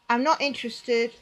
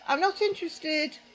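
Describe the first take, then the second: First: It is said with a firm edge. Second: It is said in a mild, even voice. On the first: The refusal is final and should end the conversation. "there's that slight edge to my voice" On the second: A polite first refusal. "At first I said"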